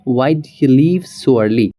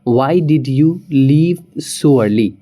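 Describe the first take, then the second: First: The words 'did you' blend into one sound. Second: The words 'did you' are said separately.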